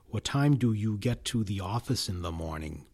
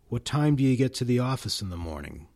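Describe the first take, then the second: First: Function words like do are fully pronounced. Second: Function words like do are reduced, weak forms.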